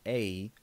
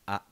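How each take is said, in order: First: The vowel glides like an English diphthong. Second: The vowel is pure and steady throughout. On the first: The speaker calls it wrong. "don't pronounce it as a" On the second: The speaker calls it right. "Pronounce it as a"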